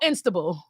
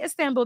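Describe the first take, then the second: First: It is said as Instable, with an 'n' added. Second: It is said as Istanbul, with the middle 't'. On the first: This is how the locals say the name. "They're like, "Oh, Instable."" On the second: This is how the speaker said the venue name. "Cafe Istanbul"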